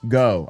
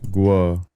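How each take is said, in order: First: The name sounds like 'go' with no w-glide. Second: The name has a w-glide, like 'gwo'. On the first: The speaker calls it wrong. "It's not Go" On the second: The speaker calls it right. "It's Guo"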